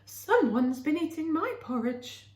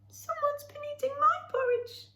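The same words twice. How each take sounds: First: A normal middle voice for Mother Bear. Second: A high squeaky voice for Baby Bear.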